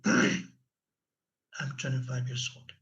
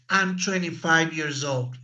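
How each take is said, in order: First: It is said very quietly, in a low voice. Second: It is said at a moderate, normal volume. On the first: The speaker seems insecure. The speaker calls it wrong. "Low tone of voice" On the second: The speaker seems confident. The speaker calls it right. "You are talking in the right tone of voice"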